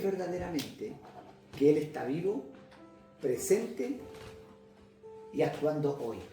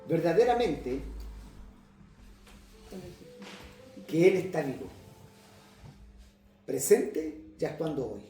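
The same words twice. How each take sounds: First: It is said in one smooth run. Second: It is said in separate chunks with pauses.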